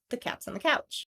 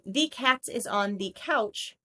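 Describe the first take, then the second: First: The word is is reduced into cat's. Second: The word is is pronounced as a full word. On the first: The speaker calls it right. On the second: The speaker calls it wrong.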